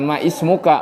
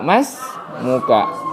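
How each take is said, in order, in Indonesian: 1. Bunyi i pada ismuka diucapkan terpisah. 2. Bunyi i dihilangkan, menyambung menjadi masmuka. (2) "jadi itu hamzah wasal ya. Jadi masmu"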